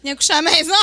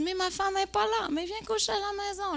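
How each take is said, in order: First: Loud, high comic punchline; mock loud invitation. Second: High, light put-on man's voice; mock coaxing host. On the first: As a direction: belt out the invitation for laughs. Reprend l'invitation pour la salle. (invitation reprise fort, en punch comique) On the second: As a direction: offer the invitation in a high, easy voice. Imite l'hôte qui invite. (hôte insistant, voix haute et légère)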